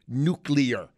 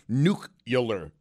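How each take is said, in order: First: The word is said as 'nuclear'. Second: The word is said as 'nucular'. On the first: The speaker calls it right. "instead of nuclear" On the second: The speaker calls it wrong. "Bush took a lot of heat, and deservedly so, for nuclear"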